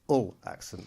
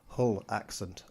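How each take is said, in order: First: Hull is said in the local Hull accent. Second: Hull is said in a standard accent. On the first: The speaker calls it right. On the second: The speaker calls it wrong.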